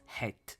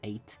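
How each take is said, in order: First: The word begins with an h sound. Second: The word begins directly with a vowel. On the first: "pronounced het" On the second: "the American way of saying eight"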